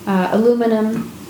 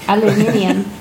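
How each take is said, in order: First: It is said the American way, four syllables. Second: It is said the Australian way, five syllables.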